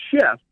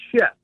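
First: Said in the usual way. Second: Shift. set apart and stressed on its own; emphasized word. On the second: Shown as a demonstration. Guest emphasizes the word shift. to the host, stressed. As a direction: give the single word shift. weight after a pause. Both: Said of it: "I wanna emphasize that word".

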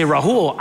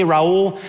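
First: Rahul with a breathed H before "hul". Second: Raul with no H, vowels gliding together; Spanish-style Raul. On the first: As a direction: sound the H in "Rahul": ra-HOOL. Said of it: "Sometimes I say Raul". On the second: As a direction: drop the H in "Raul": ra-OOL. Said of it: "sometimes I say Rahul". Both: Shown as a demonstration.

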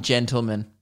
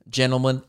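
First: "gentleman" with its T pronounced; T sounded in gentleman. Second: "gentlemen" with the T left out; T dropped in gentlemen. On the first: Host naming the letter he skips, "gentleman" with its T. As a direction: say "gentleman" with the T after the N. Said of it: "the T in gentleman". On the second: Host noticing his own habit, "gentlemen" without its T. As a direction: say "gentlemen" as "jennlemen". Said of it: "I never say". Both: Shown as a demonstration.

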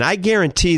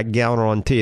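First: Guarantee slipping into a New Orleans accent, said a bit higher. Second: Said in the usual way. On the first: Real, not acted. Doctor promising listeners results, New Orleans accent slipping out. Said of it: "That's my New Orleans coon-ass accent coming out". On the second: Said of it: "So I should say I guarantee".

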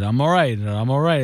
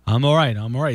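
First: I'm all right, I'm all right, run together quickly; rushed woozy insistence; retold quick reassurance. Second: Fast nervous insistence you're fine; quick demo of reassurance. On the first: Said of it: "This is exactly how I said it". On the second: Shown as a demonstration. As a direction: say I'm all right, I'm all right, rushed and clipped together. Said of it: "this quickly".

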